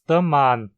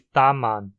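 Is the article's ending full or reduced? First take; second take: reduced; full. First: The article ends in a reduced, weak vowel. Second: The article ends in a full 'er' sound. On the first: "dizemos the man" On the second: "em vez de ta man"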